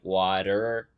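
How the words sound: It ends with a strong R sound. "Americans are real hard R with everything"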